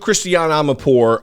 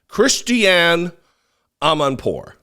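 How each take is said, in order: First: The name is said quickly and rushed. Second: The name is said slowly and carefully. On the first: "I rushed through her name" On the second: "I think that was right"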